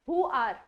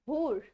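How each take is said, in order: First: Both words are said fully and separately. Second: The words blend into one short syllable.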